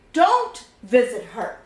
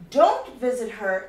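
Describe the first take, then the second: First: Don't punched louder; don't stressed, a teacher's example. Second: Said in the usual way. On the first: Shown as a demonstration. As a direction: hit the word don't like a warning. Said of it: "Let's say I'm saying". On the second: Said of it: "Notice what happens now".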